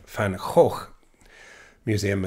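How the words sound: Van Gogh is said the Dutch way.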